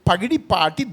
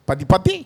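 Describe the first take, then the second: First: The name is said in native Telugu pronunciation. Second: The name is said in a garbled North Indian way. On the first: The speaker calls it right. "ఎంత చక్కగా పలుకుతున్నాం మనం" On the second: The speaker calls it wrong. "ఇట్లా పలకడంలా ఇబ్బంది అవుతుంది"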